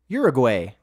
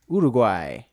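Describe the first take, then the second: First: It is said with a Canadian pronunciation. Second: It is said without a Canadian pronunciation.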